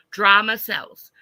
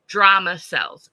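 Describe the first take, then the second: First: Slow and loud, "drama" hit hard and falling; emphatic. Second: Slow, punched DRAMA with a falling tune; emphatic. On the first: Quoting note sixteen back to chat, emphatic. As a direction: stamp "drama" like a headline. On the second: Reading her note on drama to chat, emphatic. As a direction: lean hard on "Drama". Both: Real, not acted.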